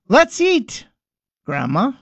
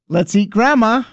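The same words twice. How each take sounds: First: There is a pause before Grandma. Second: There is no pause before Grandma.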